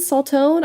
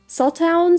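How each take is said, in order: First: The name ends with a 'tone' sound. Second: The name ends with a 'town' sound. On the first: Some other people say it this way. "I've heard some people pronounce it Saltone" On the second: This is the speaker's own pronunciation. "I say Sawtown"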